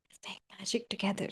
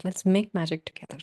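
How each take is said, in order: First: Fast intimate whisper, very soft. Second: Said in the usual way. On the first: Shown as a demonstration. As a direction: lean in and whisper it fast, like a secret spell. Repeats line as a whisper.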